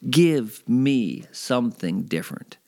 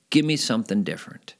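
First: "Give me something different" spaced out slowly, each word weighted; emphatic motto. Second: Said in the usual way. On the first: Real, not acted. Host sums up how to get through life, "Give me something different" slow and emphatic. Repeats the quote as his motto.

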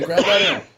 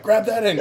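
First: Raised, urgent repeat of the order; calling out. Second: High urgent call to the brother. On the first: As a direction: shout it again while wrestling the owl. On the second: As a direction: bark the order mid-struggle. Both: Retold or imitated. Calling to brother during the catch.

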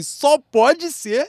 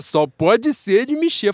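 First: Drawn-out. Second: Slow, stretched-out guess; drawn-out. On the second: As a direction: drag the words out, unsure. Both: Retold or imitated. Mimicking a hesitant guess.

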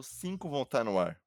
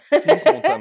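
First: Said in the usual way. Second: Loud high shout. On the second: Acted. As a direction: belt it out loud. Shouted repeat of the count. (grito alto)

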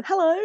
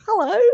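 First: Bright high sing-song hello; a cheery high-pitched greeting; playful high hello. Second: Higher sing-song hello; even higher playful hello. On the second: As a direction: pitch it up further, teasing. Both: Acted. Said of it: "playful repeated greeting".

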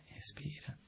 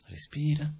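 First: Whisper. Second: Said in the usual way. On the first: Shown as a demonstration. Telling himself to stay calm after a refusal, whispered. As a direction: breathe it out in a whisper.

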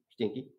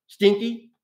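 First: "stinky" repeated low and much softer, almost to himself; quiet echo. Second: "stinky" said high and louder, rising in disgust; disgusted emphasis. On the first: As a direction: let "stinky" fall away low and soft. Echoing the word, dropping away. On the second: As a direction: spit out "stinky" with loud disgust. Describing the jail with disgust. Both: Acted.

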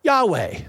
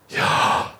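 First: Yahweh voiced as English YAH-way; Yahweh in everyday English, falling at the end; English pronunciation. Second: Yahweh as pure breath, inhale-exhale; Yahweh whispered like slow breathing; breathing sound. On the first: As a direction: say "Yahweh" clearly, two voiced syllables. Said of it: "we go ahead in English and pronounce it". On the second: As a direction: breathe "Yahweh" as two long voiceless puffs, YAH-WAH. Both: Shown as a demonstration.

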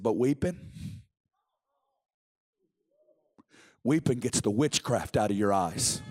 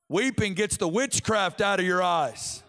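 First: Low, slow seer's pronouncement; hushed low-voiced revelation from an old prophet; Bob Jones. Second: Firm, rising-energy preacher's proclamation; the quote turned into open preaching; preaching declaration. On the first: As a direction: drop low and weight each word. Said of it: "He said". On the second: Real, not acted. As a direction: declare it to the congregation. Repeats the quote, now as preaching.

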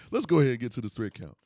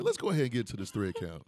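First: Quicker and louder with a laugh; louder, faster redo. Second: Said in the usual way. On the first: Shown as a demonstration. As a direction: punch the line out again. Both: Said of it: "repeats line faster, louder".

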